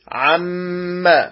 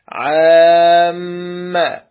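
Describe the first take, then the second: First: The vowel before the doubled consonant is short. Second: The vowel before the doubled consonant is lengthened. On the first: The speaker calls it right. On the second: The speaker calls it wrong.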